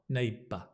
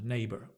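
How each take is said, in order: First: The word ends with a schwa, no R. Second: The word ends with an audible R sound. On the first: "UK English, is with a schwa" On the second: "R sound"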